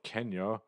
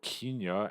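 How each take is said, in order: First: Kenya is said in the speaker's ordinary pronunciation. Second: Kenya is said in an imitated, different pronunciation.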